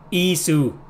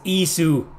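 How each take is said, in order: No difference in how they are said.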